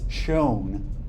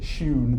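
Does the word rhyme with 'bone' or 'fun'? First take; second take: bone; fun. First: The vowel sounds like the one in 'bone'. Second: The vowel sounds like the one in 'fun'. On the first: The speaker calls it right. "They pronounced it as "shown."" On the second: The speaker calls it wrong. "they never pronounced it "shun.""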